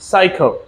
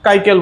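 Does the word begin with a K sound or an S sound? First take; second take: S sound; K sound. First: The word begins with an S sound. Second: The word begins with a K sound. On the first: The speaker calls it right. "সি এর পর যদি ই থাকে বা I থাকে বা Y থাকে তাহলে এস উচ্চারণ হবে" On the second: The speaker calls it wrong. "আমরা এটাকে কাইকেল বলতে পারি না"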